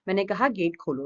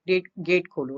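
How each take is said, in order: First: A mild stern command, words bitten off; stern, through teeth. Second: Said in the usual way. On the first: A narrator's reading. Izzat ordering the hesitant watchman, sternly. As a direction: repeat the order firmly, no patience left. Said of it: "سختی سے چبا کر کہا تھا".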